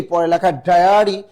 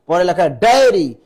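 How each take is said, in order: First: ডায়ারি said as "dayari" with a broad a; ডায়ারি pronounced "dyari" with an a sound, the mistaken form; wrong pronunciation. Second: ডায়েরি said as "daeri" with a clear e; ডায়েরি pronounced "da-e-ri", the correct form, with a falling close; correct pronunciation. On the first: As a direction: say ডায়ারি with an open "a" in the middle, the wrong way. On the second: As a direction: give ডায়েরি its proper "e" sound, firm and falling. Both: Shown as a demonstration.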